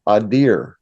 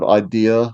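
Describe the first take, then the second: First: It has a Massachusetts accent, with a final r. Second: It is said plainly, without a final r.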